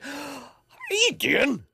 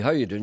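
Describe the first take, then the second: First: It is said with a gasp, pleased and surprised. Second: It is said in a plain, neutral way.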